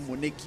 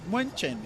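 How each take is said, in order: First: The name is pronounced with English sounds. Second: The name is pronounced with German sounds. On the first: The speaker calls it wrong. "not not Munich or Munich" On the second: The speaker calls it right. "it's pronounced Munchen in German"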